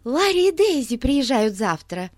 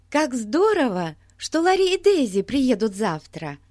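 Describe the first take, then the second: First: Breathless, blurting it out; out of breath, news tumbling out; urgent panting report. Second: Put-on excited girl. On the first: A narrator's reading. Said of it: "запыхавшись, выпалила Бетси". (запыхавшись, выпалила новость) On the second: Бетси радуется приезду друзей.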